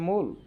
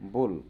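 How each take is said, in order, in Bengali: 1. শব্দটি পরিষ্কার m ধ্বনি দিয়ে শুরু হয়। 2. শব্দটি b-এর মতো ধ্বনি দিয়ে শুরু হয়। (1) "শোনা যাবে মূল" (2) "শোনা যাচ্ছে দেখেন বুল"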